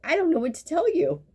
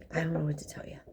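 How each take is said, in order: First: Higher, louder, fed up; exasperated exclaim. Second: Breathy whisper, half to herself; whispered aside. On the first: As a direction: throw up your hands, half laughing. Mocking patient's surprise. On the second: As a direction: drop to a whisper, resigned. Aside to patient about treatment. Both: Acted.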